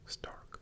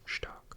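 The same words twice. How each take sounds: First: The word begins with a plain s sound. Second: The word begins with a sh sound. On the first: The speaker calls it wrong. "It's not stark" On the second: The speaker calls it right. "but rather stark"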